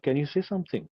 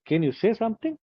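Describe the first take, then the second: First: It is said in a neutral English accent. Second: It is said in a Gujarati English accent. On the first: The speaker calls it right. "you have to keep your English neutral" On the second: The speaker calls it wrong. "like a Gujarati would say"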